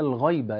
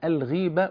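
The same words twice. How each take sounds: First: The first vowel sounds like 'ay'. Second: The first vowel sounds like 'ee'. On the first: The speaker calls it wrong. "بينطق كلمة الغيبة غلط" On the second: The speaker calls it right. "اسمها الغيبة"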